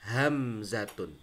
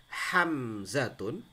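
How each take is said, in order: No difference in how they are said.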